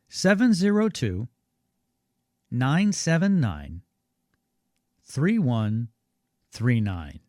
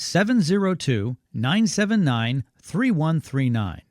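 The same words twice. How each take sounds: First: The number is read more slowly. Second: The number is read at normal speed.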